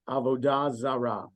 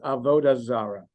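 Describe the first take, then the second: First: It is pronounced with modern Hebrew stress placement. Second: It is pronounced with Yiddish-style stress placement. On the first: "the modern Hebrew way would be Avodah Zarah" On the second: "I'm pronouncing it kind of the uh, the Yiddish way"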